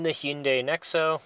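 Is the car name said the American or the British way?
American. The car name has an American-style pronunciation.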